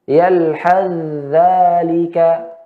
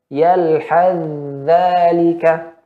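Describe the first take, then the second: First: The th sound merges into the following dh. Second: The th sound merges into the following dh.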